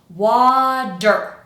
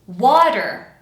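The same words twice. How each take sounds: First: The middle consonant is a long, exaggerated D. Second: The middle consonant is a quick, light flap. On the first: "that D sound that I'm kind of exaggerating right now" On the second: "just a little flap sound, and it's going to be quick"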